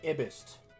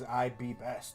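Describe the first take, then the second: First: The words are run together into one word. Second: Each word is said clearly and separately. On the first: The speaker calls it wrong. "if you were saying it wrong" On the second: The speaker calls it right. "That's how you're supposed to say it"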